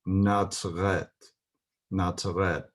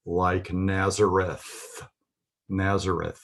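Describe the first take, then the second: First: "Natzret" with ts in the middle and a hard final t; "Natzret" in two syllables, ending on a crisp t; modern Hebrew pronunciation. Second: "Nazareth" said slowly, holding the final th; TH sound. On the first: Teacher showing Nazareth in modern Hebrew, T-sound pronunciation. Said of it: "with a T sound". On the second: Teacher showing the study guide's TH, careful pronunciation. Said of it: "pronounced as a T H". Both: Shown as a demonstration.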